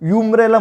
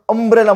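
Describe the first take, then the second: First: The word begins with a 'yoo' sound. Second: The word begins with a short 'uh' sound. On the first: The speaker calls it wrong. "आपण युम्ब्रेला म्हणतो कधी नाही" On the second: The speaker calls it right. "आपण म्हणतो अम्ब्रेला म्हणतो"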